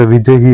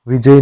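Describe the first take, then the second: First: विजयी with final ee; correct word. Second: विजय without final ee; wrong word. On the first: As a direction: add a clear ई to विजयी. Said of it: "होता है". (विजयी में अंतिम ई) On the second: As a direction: end विजय on "jay". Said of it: "नहीं होता". (विजय, ई के बिना) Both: Shown as a demonstration.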